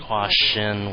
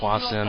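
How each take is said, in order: First: The second syllable begins with an SH sound. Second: The second syllable begins with an S sound. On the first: "with an S H sound" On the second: "I pronounce it Hwasin"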